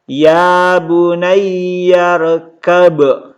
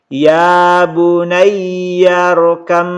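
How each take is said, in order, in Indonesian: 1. Huruf b dibaca di akhir. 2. Huruf b melebur menjadi m yang didengungkan. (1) "Tidak dibaca lagi" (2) "Ini didengungkan teman-teman sekalian karena mim itu gunnah"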